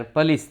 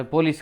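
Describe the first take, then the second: First: પોલીસ with a short neutral first vowel, 'puh-LEES'; 'puh-lees', no full 'o' in પોલીસ; corrected English pronunciation. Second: પોલીસ as Gujarati speakers usually say it, full 'po' first; everyday Gujarati 'po-lees' for પોલીસ; common local pronunciation. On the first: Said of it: "એનો ઉચ્ચાર પોલીસ થાય છે". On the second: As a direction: say પોલીસ with a clear 'o': PO-lees. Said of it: "એનો ઉચ્ચાર આપણે પોલીસ કરીએ છીએ". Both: Shown as a demonstration.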